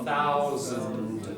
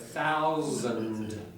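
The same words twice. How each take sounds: First: The middle consonant is a strong voiced z. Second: The same.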